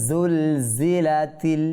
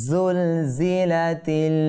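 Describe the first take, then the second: Both takes have the same delivery.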